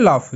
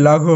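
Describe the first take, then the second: First: "লাফ" ending in a clean f sound; correct GH as f. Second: "লাঘ" with GH sounded as g plus h; mistaken letter-by-letter reading. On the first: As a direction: say "লাফ" as laf, no g or h. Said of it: "জিএইচ ফ, লাফ।". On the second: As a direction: misread "লাঘ" as la-gho, no f sound. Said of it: "যখন মনে কনফিউশনে থাকবো". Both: Shown as a demonstration.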